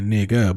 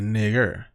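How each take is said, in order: First: The word ends in a soft vowel sound. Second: The word ends in a hard R sound.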